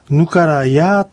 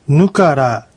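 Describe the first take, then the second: First: It is said slowly with final ya. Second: It is said at normal speed without final ya. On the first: "ゆっくり発音するときにはぬからやと発音できる" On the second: "普通の速さで発音するときにはこのY の音が落ちます"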